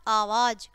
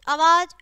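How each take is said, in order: First: आवाज said "aavaaj", long first "aa"; correct long vowel. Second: आवाज said "avaaj", short first "a"; wrong short vowel. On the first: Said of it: "और फिर शुद्ध है". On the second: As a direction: open आवाज on a quick schwa. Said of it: "पहले हमारी अशुद्ध शब्द है". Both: Shown as a demonstration.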